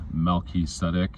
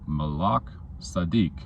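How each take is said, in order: First: The name is said with English sounds. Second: The name is said with Hebrew sounds. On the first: The original meaning is lost. The speaker calls it wrong. "Not this Melchizedek bullshit" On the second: The name means righteous king. The speaker calls it right. "Righteous king"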